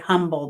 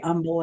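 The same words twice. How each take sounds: First: The word begins with a pronounced H sound. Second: The word begins without any H sound. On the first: This is not how locals say it. The speaker calls it wrong. "They don't say humble" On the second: This is how locals in Texas say it. The speaker calls it right. "they say humble in Texas. ... The H is silent"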